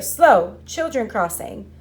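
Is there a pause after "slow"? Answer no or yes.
yes. There is a pause after slow.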